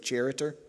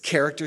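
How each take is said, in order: First: The first sound is a soft ch, like church. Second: The first sound is a hard k. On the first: The speaker calls it wrong. "you don't say charitor" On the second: The speaker calls it right. "So you pronounce the C-H as a K"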